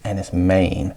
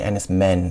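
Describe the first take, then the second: First: The name is pronounced in the Cornish way. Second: The name is pronounced in an anglicised way. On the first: The speaker calls it right. "That was pronounced in Cornish" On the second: The speaker calls it wrong. "I always say Enys Men"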